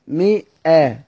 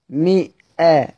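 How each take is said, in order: First: A glottal stop follows the i vowel. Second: A glottal stop follows the i vowel.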